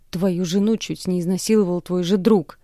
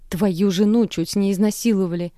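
First: Louder accusing shout; yelling. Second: Louder outraged shout; shout, stress on жену; yelling. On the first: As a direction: shout at the father. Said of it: "ору на него". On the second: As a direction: yell at the sleeping father. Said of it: "Продолжаю кричать". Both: Acted.

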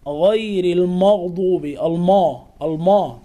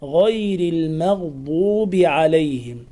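First: "المغضوب" with darkened, rounded ma; heavy mim. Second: "المغضوب" chanted slowly with thin, fronted ma; light mim. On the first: Teacher shows the error, heavy m in "المغضوب". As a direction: thicken the m in "المغضوب". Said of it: "بتفخيم الميم". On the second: Teacher gives correct reading, thin m in "المغضوب". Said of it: "الصواب". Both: Shown as a demonstration.

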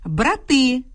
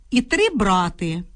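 First: Брати stressed at the end, бра-ТИ. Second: Брати stressed first, БРА-ти; stress on the stem. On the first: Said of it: "мають наголошене закінчення". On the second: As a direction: say три брати slowly, with брати as БРА-ти. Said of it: "наголос у них падає на основу". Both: Shown as a demonstration.

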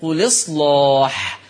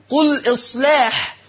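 First: "قل إصلاح" linked as quliṣlāḥ, heavy dark l, slow; نقل مع تغليظ اللام. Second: Said in the usual way. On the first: Shown as a demonstration. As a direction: slowly drop the hamza in "قل إصلاح", thick l before the long a. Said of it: "فتبقى اللام مكسورة". ("قل إصلاح" بلام مكسورة دون همزة، ولام مغلظة، ببطء) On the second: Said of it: "هعمل نقل".

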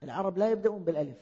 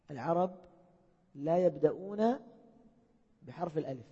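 First: Said in the usual way. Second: العرب ... لا يبدأون said word by word with pauses between; slow with pauses. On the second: Shown as a demonstration. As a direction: space out العرب and لا يبدأون for emphasis. (مع وقفات بين الكلمات للتأكيد)

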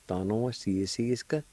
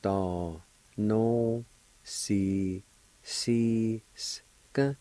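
First: "da, no, si, si, ska" run together as one word; whole-word pronunciation. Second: TA, NO, SI, SI, SKA drawn out with pauses; syllable-by-syllable pronunciation. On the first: Teacher giving the finished word for explaining, said connected. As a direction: join "da, no, si, si, ska" without gaps. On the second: Teacher demonstrating the word for explaining, syllable by syllable. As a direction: sound out "Ta no, si, si, ska" one by one. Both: Shown as a demonstration. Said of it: "it's pronounced like this".

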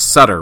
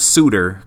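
First: "Sutter" said SUT-ter, short u as in butter. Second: "Suter" said SOO-ter, long oo vowel; "Suter" with a long oo sound, not like butter. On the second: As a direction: say "Suter" like the pitcher Brent Suter. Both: Shown as a demonstration. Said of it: "It's not Suter".

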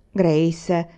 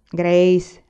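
First: Mother says the name as a mild reproach; gentle warning. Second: Father says the name louder, a stern stop; firm warning. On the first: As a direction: rein her in without raising the voice. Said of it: "disse mamma". (richiamo di mamma, lieve rimprovero) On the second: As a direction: cut her off with one firm word. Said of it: "disse papà". (richiamo deciso di papà, più forte) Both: Acted.

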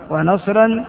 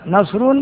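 First: ونصرا with a final "-an"; accusative ending. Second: نصر with a final "-un"; nominative ending. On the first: Teacher showing the accusative, ونصرا ending in "-an". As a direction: pronounce ونصرا as "wa-nasran". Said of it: "على المحل بالنصر". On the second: Teacher showing the nominative, نصر ending in "-un". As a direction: pronounce نصر as "nasrun". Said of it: "بالرفع". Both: Shown as a demonstration.

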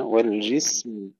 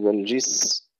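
First: والجسم slowly, still س then clear final م; final م shown after س in والجسم; audible meem. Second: والجس cut off after the hissed س, no م; missing م at the end of والجس; wrong dropped meem. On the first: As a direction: recite والجسم closing fully on a sounded م. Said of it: "نظهر الميم". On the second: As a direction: say والجس faultily, swallowing the final م. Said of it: "لا نقول والجس". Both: Shown as a demonstration.

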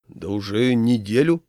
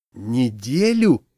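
First: Steady pitch, lifting at the end; matter-of-fact answer. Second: Slow, louder, aghast echo; horrified. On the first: Groom telling how long he's known her, matter-of-fact. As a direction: state it simply, as if that were plenty. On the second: Friend hearing how short the courtship is, horrified. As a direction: stretch the word out in horror. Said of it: "ужаснулся Семён". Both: A narrator's reading.

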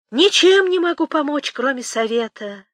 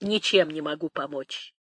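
First: High, loud, teasing lilt; raised, playful taunt; playfully mocking. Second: Low, soft admission; hushed, resigned helplessness; subdued refusal. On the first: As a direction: sing it out with a sly jeer, then ease down. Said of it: "с неожиданной игривостью в голосе, с этакой издёвочкой". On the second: Acted. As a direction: say it quietly, letting it fall. Nanny refuses help, subdued.

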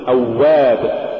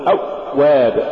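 First: Said in the usual way. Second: أواب with the doubled و choked short; cut-off waw. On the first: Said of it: "قل أواب". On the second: Shown as a demonstration. Teacher warning against an error, cut-off و in أواب. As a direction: stop dead on the و in أواب. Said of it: "ولا تقل".

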